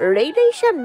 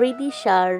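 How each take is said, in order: First: The name begins with a 'ray' sound. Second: The name begins with a 'ree' sound. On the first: The speaker calls it wrong. "রেইদিশা না" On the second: The speaker calls it right. "রিদিশা হবে"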